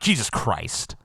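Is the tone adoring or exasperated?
exasperated. It is said in an exasperated, swearing tone. It is used as a curse. "This is taking the Lord's name in vain"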